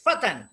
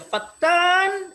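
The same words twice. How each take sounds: First: The t sound is short, single. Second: The t sound is held long, doubled. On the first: It means a young man. "itu anu nama saya, hei pemuda" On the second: It means a slanderer. "itu artinya tukang fitnah"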